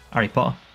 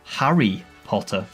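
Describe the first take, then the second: First: The H sound at the start is dropped. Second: The H sound at the start is pronounced. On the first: "we miss off the H from things ... but I would say Harry Potter" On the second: "It's Harry Potter"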